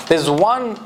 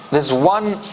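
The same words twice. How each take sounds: The two takes are said the same way.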